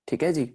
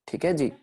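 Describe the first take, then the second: Both takes have the same delivery.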